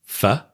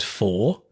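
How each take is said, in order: First: The word is said in its reduced form. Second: The word is said in its full form. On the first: "that's how we really pronounce them" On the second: "That's the strong form"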